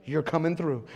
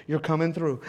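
The two takes are said the same way.

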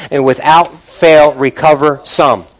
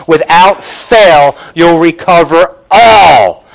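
First: Said in the usual way. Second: Slow, weighty delivery landing hard on "all"; stress on all. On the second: Shown as a demonstration. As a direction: stretch "fail" and drive "all" home. Corrects "some" to emphatic "all.

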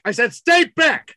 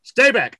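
First: High, forceful police shout; escalating shouted warning. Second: Raised-voice police order; stern warning. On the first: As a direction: shout the order insistently, hitting STAY BACK. Cop repeats warning, escalating. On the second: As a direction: order them back firmly. Cop's first warning. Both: Acted.

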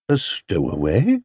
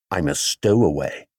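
First: Incredulous repeat with a steep final rise; questioning echo. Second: Lower-pitched, falling admission; bear's confession. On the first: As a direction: query the word, swooping up at the end. Mister Brown echoes the bear, startled. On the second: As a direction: admit it simply in the bear's voice. Bear confesses to Mister Brown. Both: A narrator's reading.

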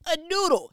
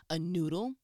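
First: Much higher and louder mock exclamation; punchy raised-voice retelling; loud insistence. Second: Said in the usual way. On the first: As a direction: belt it out as an exasperated repeat. Same offer repeated, much louder.

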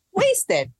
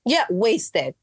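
First: "Wasted" jumped up high and drawn out; emphatic repeat. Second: Said in the usual way. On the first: Shown as a demonstration. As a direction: throw "Wasted" up high to drive it home. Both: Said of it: "repeats the word wasted".

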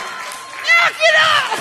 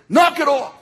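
First: Very high, drawn-out mock shriek; panicked squeal. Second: High, loud, firm order; firm command. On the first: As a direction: squeal it comically, stretched out in terror. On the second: Retold or imitated. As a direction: call it out like a confident rescuer. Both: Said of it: "I think it was more like".

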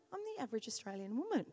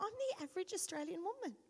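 First: Lower, softer, quick flat deflated take. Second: Fast, a touch high, savouring it; repeating it, pleased. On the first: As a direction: let the pride drain out. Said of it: "I actually got depressed". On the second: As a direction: try the phrase on happily. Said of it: "I said it a few times". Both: Retold or imitated.

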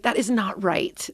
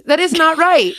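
First: Said in the usual way. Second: Louder, higher mock shout at the TV; hammed-up outrage at the screen; retold yell. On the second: Yelling at the bar show on TV, mock-indignant shout. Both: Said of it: "I yell at the T V".

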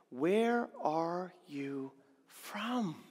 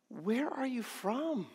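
First: Slow reading. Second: Higher, softer, haunted asking; a worried governor, half to himself; troubled Pilate. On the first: Shown as a demonstration. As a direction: read the question very slowly. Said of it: "look at the question he asks". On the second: Acted. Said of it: "the question that's plaguing his heart".

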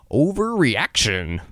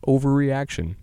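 First: Overreaction said slowly, each syllable stretched; drawn-out self-talk. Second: Said in the usual way. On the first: Shown as a demonstration. Calming himself after a panic, drawn out slowly. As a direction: stretch overreaction out like a wry thought to yourself. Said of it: "I shrug it off and think". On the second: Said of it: "That happens more than you think".

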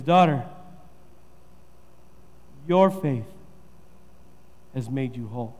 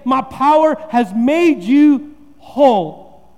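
First: Soft, gentle, low reassurance; tender Jesus. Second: Slow pompous declaration; mock preacher. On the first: Jesus tenderly reassures the woman, soft and low. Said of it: "He looks at her and he says". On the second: P=B. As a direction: pastor mocks a grandstanding Jesus, slow and grand. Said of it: "Jesus doesn't say". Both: Shown as a demonstration.

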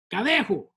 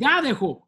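First: "Gadejo" with the accent on the middle syllable; correct syllable stress. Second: "Gadejo" with the accent on the first syllable; wrong-syllable stress. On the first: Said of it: "There we go". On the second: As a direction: hit GA in "Gadejo", GA-de-ho. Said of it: "I'm dropping my accents in the wrong spot". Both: Shown as a demonstration.

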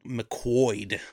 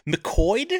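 First: McQuoid with a clear W sound, muh-KWOYD. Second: McQuoid asked as mih-KOYD, high and puzzled; McQuoid said as mik-OYD, rising. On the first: Shown as a demonstration. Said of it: "U O I is a w". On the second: Retold or imitated. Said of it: "can't throw that many vowels together".

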